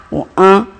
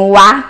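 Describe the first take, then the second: First: "an" as a nasal vowel. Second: "A" with an open, oral vowel; A oral aberto. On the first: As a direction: send the vowel of "an" through the nose. ("an" nasalizado, som de ã) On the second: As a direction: say "A" wide open, not through the nose. ("A" aberto, sem nasalizar) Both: Shown as a demonstration. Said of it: "vários outros fonemas vocálicos".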